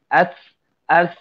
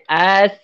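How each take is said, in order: First: The s sound is distorted, with tongue raised. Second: The s sound is clear, with tongue lowered. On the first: The speaker calls it wrong. "letak ke atas bunyi as as" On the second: The speaker calls it right. "Letak kat sini"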